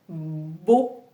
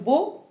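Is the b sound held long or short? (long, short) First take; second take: long; short. First: The b sound is doubled and held longer. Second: The b sound is single and short. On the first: The speaker calls it right. "on entend les deux bas" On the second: The speaker calls it wrong. "j'appuie pas sur la première et que je dis juste beau"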